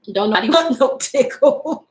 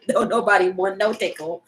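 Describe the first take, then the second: First: Laughing through the words; amused laughing punchline. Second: Said in the usual way. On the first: Real, not acted. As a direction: giggle it out. Laughs during repeat.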